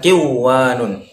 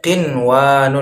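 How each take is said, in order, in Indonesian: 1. Bunyi n lebur ke dalam w. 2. Bunyi n diucapkan dengan jelas sebelum w.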